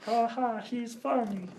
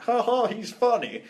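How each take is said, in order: First: High-pitched frog puppet voice; Kermit the Frog. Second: Bad director impression, high and slow; badly faked voice, pitched well up and drawn out; George Lucas. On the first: Retold or imitated. Podcaster redoing the director as a puppet frog, high impression. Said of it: "I need to do Kermit the Frog". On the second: Podcaster mimicking a film director, bad impression. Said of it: "that's a bad George Lucas impression".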